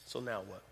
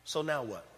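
First: Asked again much softer and lower; quiet repeat. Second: Said in the usual way. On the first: Shown as a demonstration. Preacher repeating the question to the room, hushed. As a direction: let it drop to a near hush.

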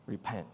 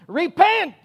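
First: "Repent," said low and soft; a softer "Repent," with no preacher yell; quiet repent. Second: High, loud hollered "Repent!"; street preacher yell. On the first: Shown as a demonstration. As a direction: drop "Repent," to a low, calm voice. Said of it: "Jesus didn't have a Southern accent". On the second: Retold or imitated. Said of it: "street preachers on soapboxes hollering and screaming".

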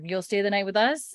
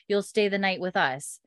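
First: "you'll stay the night with us" as a question, rising on "us". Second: "you'll stay the night with us" as a statement, falling at the end; tell, don't ask: "us" drops in pitch. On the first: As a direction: ask it, lifting the end on "us". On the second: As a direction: let "you'll stay the night with us" settle downward. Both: Retold or imitated. Rephrasing a line as statement, then question.

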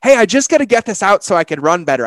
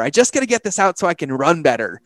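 First: Bright, raised voice as the car; playful car voice. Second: Said in the usual way. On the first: Pretend. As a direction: play the car asking to vent. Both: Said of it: "my car literally saying".

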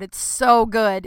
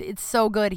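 First: Drawn out, leaning on so; slow emphatic praise. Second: Said in the usual way. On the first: Real, not acted. Praising a comedian friend to listeners, slow and emphatic. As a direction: savour every word of it slowly.

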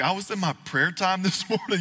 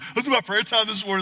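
First: Laughing mock quote. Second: A higher, churchy retelling; mock pious quote, higher. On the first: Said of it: "they'll talk about". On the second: Preacher imitates churchgoers' prayer-talk, mock pious and higher. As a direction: lift it into a put-on spiritual tone. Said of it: "I don't think they talk this".

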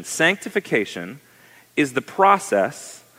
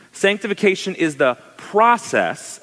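First: Said in the usual way. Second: PROCESS given firm emphasis; higher-pitched line with "process" punched out; stress on process. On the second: Shown as a demonstration. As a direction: lean hard on the word "process". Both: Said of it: "emphasis on that word".

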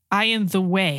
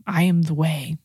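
First: Said in the usual way. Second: Hushed whisper of the words. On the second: Shown as a demonstration. Preacher whispers Jesus' words to the congregation in a hush. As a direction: breathe it as a secret to the listeners.

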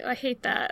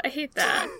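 First: Leg nadruk op "I" in "I hate that"; stress on I. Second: "hate" hit with a falling tune; stress on hate. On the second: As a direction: punch "hate", let it drop. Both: Shown as a demonstration.

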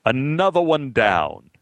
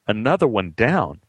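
First: Slow, grand theatrical pronouncement; old actor grandly proclaiming to the dressing room; grand exclamation. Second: Another one down asked as a baffled question; puzzled echo. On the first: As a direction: declaim another one down like an old stage ham. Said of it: "exclaimed grandly". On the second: Repeating Al's line puzzled. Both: Retold or imitated.

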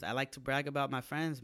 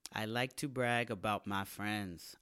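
First: Said in the usual way. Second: "to" leaned on, "I like to brag" slowed and stressed; slow emphatic repeat. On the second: Shown as a demonstration. Podcast host repeating to hammer home how proud he is of his friends, slow emphatic.

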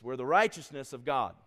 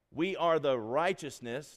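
First: "righteousness" louder and falling in "we're the righteousness of God"; stress on righteousness. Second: "are" pushed up and drawn out in "We are the righteousness"; stress on ARE. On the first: Preacher correcting himself, stress moved to "righteousness". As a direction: hit "righteousness" hard, let "God" drop. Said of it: "The emphasis is in Christ". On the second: Preacher testing where the stress falls, slow stress on "are". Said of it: "no, not emphasis". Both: Shown as a demonstration.

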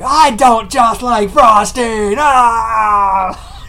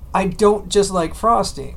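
First: Put-on loud, high, slow toddler bawl; imitated frosting tantrum; mock crying. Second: Said in the usual way. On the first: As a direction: wail each word, ending in a scream. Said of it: "Stop crying". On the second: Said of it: "what he was trying to say was".

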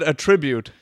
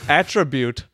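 First: "attribute" stressed in the middle, uh-TRIB-ute; stress on second syllable. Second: "Attribute" stressed on the first syllable, AT-tri-bute. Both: Shown as a demonstration. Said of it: "I would have said attribute".

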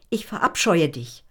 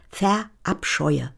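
First: Said in the usual way. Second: Word drawn out, slow; slowly spelled out. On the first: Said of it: "Richtig laut". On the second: A narrator's reading. Gitti slowly repeats the word for the child. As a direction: stretch every syllable of Verabscheue. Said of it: "Rebecca, was?".

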